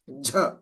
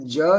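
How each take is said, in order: First: The consonant is released with a strong puff of air. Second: The consonant is plain, without a puff of air. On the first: "That's a again that aspirated" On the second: "Ja is Japan, ... job, jug. Though they're they're simple sounds"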